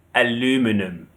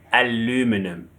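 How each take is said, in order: The two takes are said the same way.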